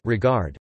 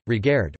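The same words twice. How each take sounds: First: Said in the usual way. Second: "regard" said re-GAIRD, with the air vowel of Scots; "regard" in Scots, second syllable rhymes with cared; Scots form. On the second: Shown as a demonstration. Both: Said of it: "Similarly with Romance caird".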